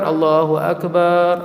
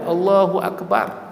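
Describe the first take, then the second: First: The last vowel is drawn out long. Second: The last vowel is kept short. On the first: The speaker calls it wrong. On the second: The speaker calls it right.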